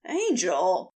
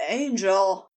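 First: Startled low exclamation with a lift; shocked cry. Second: Low, breath-caught moan. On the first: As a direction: exclaim it as if just dropped. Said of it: "cried out in shock as he landed". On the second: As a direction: let the word fall out as a moan. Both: A narrator's reading.

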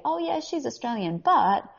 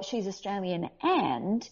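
First: "but" punched after a high "Oh yeah"; stress on BUT. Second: "and" drawn out with a rising tune; slow, open-ended lift on "and"; stress on AND. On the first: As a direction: quote an agent, landing hard on "but". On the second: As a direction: quote an agent, leaving "and" hanging upward. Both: Retold or imitated. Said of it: "who then say".

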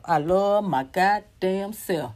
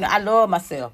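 First: Slow, each word "love my goddamn self" weighted; slow emphatic affirmation. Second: Said in the usual way. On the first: Shown as a demonstration.

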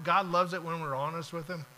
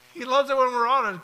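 First: Said in the usual way. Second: "loves" punched, louder and higher; emphatic repeat. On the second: Real, not acted. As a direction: drive the repeat home hitting "loves". Repeats the point with force.

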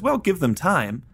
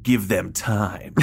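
First: High-pitched, drawn-out line as Frank; Frank's retort. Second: Very slow, savoured mad-scientist line; Chalmers. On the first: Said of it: "because Frank says". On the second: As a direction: stretch each word like a theatrical villain. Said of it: "And Chalmers says". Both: Retold or imitated.

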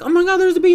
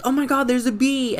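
First: High, loud fake shriek; mock panic. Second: Mock panic. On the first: Girls teasing their little cousin, loud fake bee scream. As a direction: shriek it like you're pretending to be scared. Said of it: "and then we'd be like". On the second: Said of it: "we used to be like".

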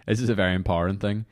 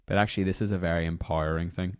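First: Said in the usual way. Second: Empowering said as im-POW-ire-ing, the vowel slipping odd; a slip into an odd accent on empowering; empowering with a stray, funny vowel; funny wee accent. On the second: Real, not acted. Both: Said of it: "that's a funny wee accent".

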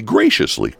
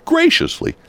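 First: Said in the usual way. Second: Graciously jumps much higher, drawn-out mock praise; sarcastic graciously. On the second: Shown as a demonstration. Host mocking Merced's gift to Atwater, graciously said sarcastically high. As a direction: lift graciously way up, dripping with irony. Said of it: "they graciously".

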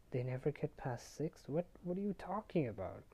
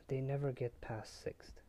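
First: Incredulous echo, pitch climbing high; acted-out confusion, rising into higher pitch; retold baffled question. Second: "They never get past sixth" as a falling statement; retold statement. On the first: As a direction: repeat it back as a puzzled question. Percy echoes it in disbelief. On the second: Retold cryptic statement, echoed back.

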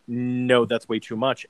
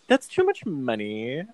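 First: Stark, even refusal; understated firm objection; staunch. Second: Playful mock protest with swooping pitch; exaggerated, jokey objection. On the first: Retold or imitated. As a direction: refuse plainly, without any play. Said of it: "staunch, stark, sort of like". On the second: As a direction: tease it out in rom-com banter style. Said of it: "it's played so jokey".

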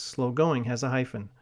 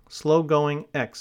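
First: Said in the usual way. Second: "slow-going" stretched out clearly for writing down; slow dictation. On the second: Shown as a demonstration. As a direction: read out slowly and deliberately for dictation.

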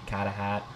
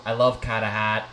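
First: Carter Hart as "Cahtah Haht" in Boston accent. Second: Said in the usual way. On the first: Shown as a demonstration. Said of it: "you have to say his name in a Boston accent". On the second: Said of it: "in a Boston accent".

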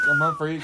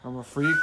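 First: Very high squeak; squeaky voice. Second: Said in the usual way. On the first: Pretend. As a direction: squeak it out playfully.

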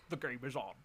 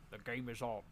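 First: A hint of Sean Connery looking into the camera; bad Connery catchphrase; Sean Connery impression. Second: Sean Connery line. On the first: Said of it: "It's Sean Connery". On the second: Acted. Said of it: "and he says".

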